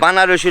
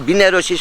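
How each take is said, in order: First: The first syllable has an 'a' vowel. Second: The first syllable has an 'i' vowel. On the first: This is what everyone commonly calls it. The speaker calls it wrong. "সবাই কয় বানারসি, কিন্তু বানারসি নয়" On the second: This was the lake's original name. The speaker calls it right. "এটার নাম ছিল বিনারসি সাগর"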